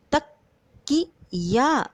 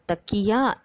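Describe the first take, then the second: First: "तकिया" very slowly in separate syllables, त, कि, या; syllable-by-syllable demo. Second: Said in the usual way. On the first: Shown as a demonstration. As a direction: sound out "तकिया" with gaps between syllables. ("तकिया" को अक्षर-अक्षर तोड़कर धीरे बोलें) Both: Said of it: "तो हम इसे बोलेंगे कैसे".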